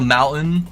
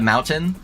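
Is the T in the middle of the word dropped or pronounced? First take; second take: dropped; pronounced. First: The middle T is dropped, not clearly pronounced. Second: The middle T is clearly pronounced. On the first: This is the local way of speaking. The speaker calls it wrong. "people in Utah they don't like to pronounce T's" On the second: This is the careful way of speaking. The speaker calls it right. "try to pronounce T's"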